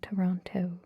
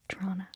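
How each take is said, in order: First: Both T sounds are pronounced clearly and carefully. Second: It is squeezed short with a ch-like sound. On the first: The speaker is using a careful, soft-spoken voice. "I overpronounce my T's" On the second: The speaker sounds as local as possible. "The most local you can get is Trona with like a C H"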